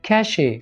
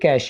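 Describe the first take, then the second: First: The word ends with an extra vowel syllable. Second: The word ends on the final consonant sound. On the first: The speaker calls it wrong. "इसको ऐसे बोलते हैं कैशे" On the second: The speaker calls it right. "ये कैशे नहीं है बल्कि ये कैश ही है"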